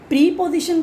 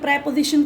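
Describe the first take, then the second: First: The first syllable has a long 'ee' vowel. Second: The first syllable has a short 'e' vowel. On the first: "ये प्री position कह लें" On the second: "जो correct pronunciation है वो प्रे है"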